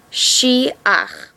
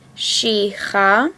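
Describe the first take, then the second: First: The ending is said as 'ach', vowel first. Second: The ending is said as 'cha', consonant first. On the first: The speaker calls it right. "The correct way to say it is she ach" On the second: The speaker calls it wrong. "We're not reading it she cha"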